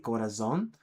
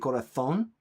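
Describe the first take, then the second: First: The z is pronounced like an s. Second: The z is pronounced like a th. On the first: "what most of us would say" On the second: "the Z is a a th sound"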